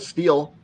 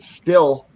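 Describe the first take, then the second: First: The vowel is long, as in 'steel'. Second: The vowel is short, as in 'still'. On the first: The speaker calls it right. "instead of steel" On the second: The speaker calls it wrong. "pronounces it still instead of"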